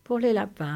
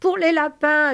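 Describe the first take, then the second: First: Said in the usual way. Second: High, loud joyful holler; excited yell. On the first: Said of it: "répéta Georges". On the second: Acted. Lénie bursts into the farm dream, excited yell. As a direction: shout it out with delight. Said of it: "hurla Lénie".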